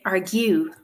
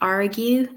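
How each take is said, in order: First: The stress falls on a shifted syllable. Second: The stress falls on the usual syllable. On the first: The speaker calls it wrong. "they're putting the stress on the wrong syllable" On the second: The speaker calls it right. "instead of saying argue"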